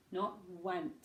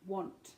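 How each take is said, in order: First: "want" said with a flat a vowel, like "wănt"; wrong vowel. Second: "want" with lips pushed forward, rounded aw vowel. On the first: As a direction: show the mistake. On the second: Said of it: "bring your lips forward". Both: Shown as a demonstration.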